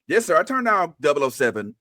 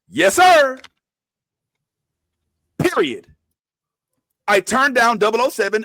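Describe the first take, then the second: First: The words run on without a stop after 'sir'. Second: There is a full stop after 'sir'. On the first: The whole line is one quoted statement. The speaker calls it wrong. "You're reading it like this" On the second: 'Yes, sir' is a separate exclamation. The speaker calls it right.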